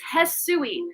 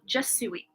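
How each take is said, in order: First: The name begins with an H sound. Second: The name begins with a J sound. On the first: The speaker calls it right. "her name is pronounced Hesui" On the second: The speaker calls it wrong. "I knew I was pronouncing it wrong this whole time"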